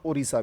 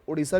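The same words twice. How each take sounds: First: The middle consonant is a d sound. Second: The middle consonant is an r sound. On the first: "डी I भी होता है" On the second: "आर आई भी होता है"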